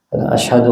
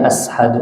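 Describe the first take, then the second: First: The consonant after the first a is sh. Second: The consonant after the first a is s. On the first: The speaker calls it right. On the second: The speaker calls it wrong.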